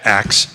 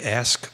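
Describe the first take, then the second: First: The word ends with a 'ks' sound. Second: The word ends with an 'sk' sound. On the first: "you said it Brooklyn" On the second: "did I say ask"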